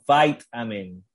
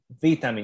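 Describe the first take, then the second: First: It is said with an American accent. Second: It is said with a non-American accent.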